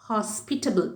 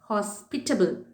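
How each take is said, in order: First: The stress is on the 'pit' syllable. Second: The stress is on the 'hos' syllable. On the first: This is the British pronunciation. "Bit அதை அழுத்தமாக British இங்கிலீஷில் சொல்லுவாங்க" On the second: This is the American pronunciation. "ஹெச்ஓஎஸ் அழுத்தமாக American இங்கிலீஷில்"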